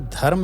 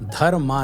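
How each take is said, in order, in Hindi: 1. शब्द का अंत व्यंजन 'm' पर होता है। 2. शब्द का अंत लंबे 'aa' स्वर से होता है। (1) "इसी तरह धर्म है" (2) "धर्मा नहीं है"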